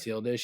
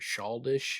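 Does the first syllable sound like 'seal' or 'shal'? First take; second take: seal; shal. First: The first syllable sounds like 'seal'. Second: The first syllable sounds like 'shal'. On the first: The speaker calls it right. "He doesn't know how to say uh, seal dish" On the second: The speaker calls it wrong. "He says like shaldish"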